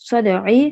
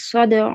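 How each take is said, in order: First: The word ends with a short vowel after the consonant. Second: The word ends abruptly with no final vowel. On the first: The recitation continues without stopping. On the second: The reciter stops at the end of the verse.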